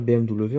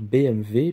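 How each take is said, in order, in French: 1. Le W se dit à la française, 'double-vé'. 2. Le W se dit à l'allemande, comme 'vé'. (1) "on ne devrait pas dire" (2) "le W se prononce V en allemand"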